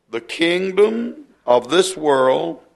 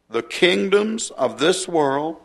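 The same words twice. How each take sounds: First: Said in the usual way. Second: "kingdoms" picked out slowly, its plural ending clear; stress on "kingdoms". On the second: Shown as a demonstration. Preacher correcting the verse for his listeners, stressing "kingdoms" as plural. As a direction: lean on "kingdoms" so the plural is heard. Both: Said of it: "kingdoms plural".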